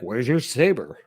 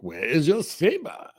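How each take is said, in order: First: It is said plainly, without exaggeration. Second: It is said in a weird, exaggerated way.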